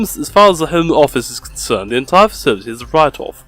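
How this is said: It has a strong, snooty posh British accent. "I now really want to read him in like a posh British accent"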